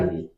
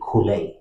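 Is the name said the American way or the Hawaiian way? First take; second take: American; Hawaiian. First: It is said the local American way. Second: It is said the original Hawaiian way. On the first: "So here you call it Kylie" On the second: "the actual pronunciation is supposed to be Kule"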